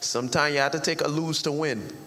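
It is spoken in a Trinidadian accent. "He's from Trinidad, so he said it like this"

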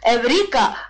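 The word is said with a Greek pronunciation. The speaker calls it right. "The Greek pronunciation is"

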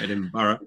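The ending is a full 'burg' sound. This is how Americans say it. The speaker calls it wrong. "not Edinburgh"

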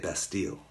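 It is said with an English pronunciation. "We say Bastille"

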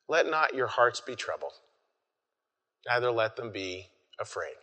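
It is read in a soft, tender way.

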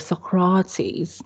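It is said in a posh accent.

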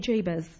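It is said in a posh accent.

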